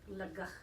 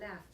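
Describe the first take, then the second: First: The word ends with a guttural throaty sound. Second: The word ends with an f sound. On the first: This is how the word was said long ago. "The Anglo-Saxons, they used to say" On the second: This is how the word is said today. "the letter G H may be pronounced as an F"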